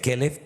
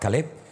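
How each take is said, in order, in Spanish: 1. Tiene las vocales de la palabra perro. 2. Tiene las vocales cambiadas del nombre. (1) "De Caleb" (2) "pasa a Caleb ... se le ponen otras vocales"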